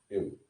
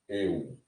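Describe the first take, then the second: First: The vowel is short and quick. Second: The vowel is held a little longer. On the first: "O epsilon é breve e aberto... Eu pronunciei rapidinho" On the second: "você demora um pouquinho na pronúncia do eta"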